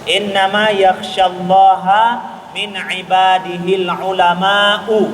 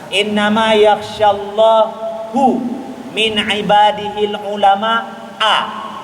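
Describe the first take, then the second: First: Allah ends in a, ulama ends in u. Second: Allah ends in u, ulama ends in a. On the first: Only the scholars fear God. The speaker calls it right. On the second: God fears the scholars. The speaker calls it wrong.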